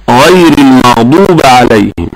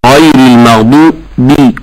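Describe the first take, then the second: First: المغضوب ending in an "a", almaghduba; slow mimicry of المغضوب with fatha on the final ba; wrong vowel demo. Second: المغضوب ending in a clear "bi"; correct kasra demo. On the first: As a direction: recite المغضوب with the mistaken open ending. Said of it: "هذا خطأ تشكيلي". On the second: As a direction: separate and stress the "bi" closing المغضوب. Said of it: "فهي الباء مكسورة". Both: Shown as a demonstration.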